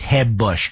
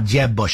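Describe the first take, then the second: First: The name starts with a soft Spanish-style J. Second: The name starts with an English J sound.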